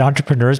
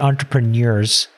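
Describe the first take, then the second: First: The ending is said in a reduced, casual way. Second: The ending is said fully, every letter sounded. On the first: "I say it entrepreneurs" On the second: "it's a very literal pronunciation of it"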